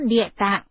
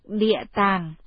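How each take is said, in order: First: The second syllable has a low heavy glottalized tone. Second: The second syllable has a low falling tone. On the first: "chữ Địa Tạng" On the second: "đọc chánh âm nên đọc Địa Tàng"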